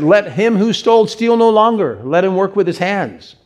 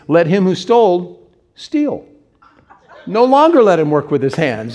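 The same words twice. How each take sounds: First: The pause comes after 'no longer'. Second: The pause comes right after 'steal'.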